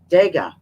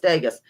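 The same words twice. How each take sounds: First: The name ends without an S sound. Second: The name ends with an S sound. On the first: The speaker calls it right. "there's no S sound" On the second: The speaker calls it wrong. "Sounds like Vegas"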